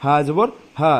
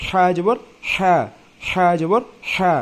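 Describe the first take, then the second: First: হা জবর হা with its হা thick and heavy from the throat; হা pushed thick and throaty, not thin. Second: হা জবর হা said slowly, its হা a light, thin breathy h; slow, light হা, not a heavy throaty one. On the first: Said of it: "এটা একটু মোটা". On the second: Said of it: "হা একটু এটা থেকে একটু চিকন হবে". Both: Shown as a demonstration.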